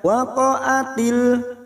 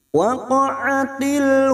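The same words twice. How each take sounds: First: The middle consonant is a plain glottal stop. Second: The middle consonant is a deep throat sound. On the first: The speaker calls it wrong. "Jangan dibaca waqa'atil" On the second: The speaker calls it right. "tetapi pakai ain"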